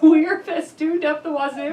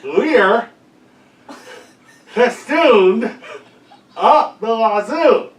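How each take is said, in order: First: Questioning repeat, slow; puzzled guess. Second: Louder repeat. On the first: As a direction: check the odd phrase, puzzled. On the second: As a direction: repeat it louder through a mouth guard, laughing. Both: Real, not acted.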